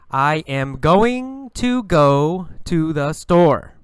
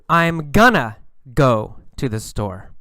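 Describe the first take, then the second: First: It is said carefully, with full words. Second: It is said casually, with reduced words.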